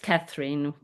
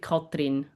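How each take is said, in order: First: The name is said with an English pronunciation. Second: The name is said with a Swiss German pronunciation. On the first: "It's Catherine" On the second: "in Swiss German it would be Katrin"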